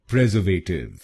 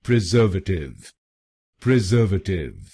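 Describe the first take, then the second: First: "प्रिजर्वेटिव" as PREZ-er-vay-tiv; common mispronunciation. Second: "प्रिजर्वेटिव" as pri-ZER-vuh-tiv; correct pronunciation. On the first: Teacher shows how people in India say it wrong, mispronounced. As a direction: stress the first syllable of "प्रिजर्वेटिव", with a long "vay". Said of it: "इस शब्द को भी गलत बोलते हैं". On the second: Teacher gives viewers the right pronunciation, carefully pronounced. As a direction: stress the second syllable of "प्रिजर्वेटिव", with a short "vuh". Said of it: "इसकी सही pronunciation है". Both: Shown as a demonstration.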